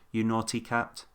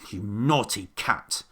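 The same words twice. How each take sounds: First: It is said plainly at normal volume. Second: It is grumbled in a moaning voice. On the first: "Did he just say" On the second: "Or maybe he grumped it. ... He grumbled"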